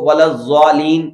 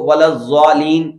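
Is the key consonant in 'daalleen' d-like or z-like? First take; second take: z-like; z-like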